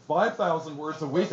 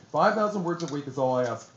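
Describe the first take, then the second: First: Mildly incredulous echo, rising at the end; "Five thousand words a week" with a questioning lift; retold exclamation. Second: Said in the usual way. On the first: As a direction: repeat it back as a disbelieving question. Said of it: "my exclamation". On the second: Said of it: "And Ada said to me".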